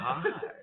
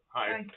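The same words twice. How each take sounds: First: It is said with lively pitch movement. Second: It is said with a flat pitch.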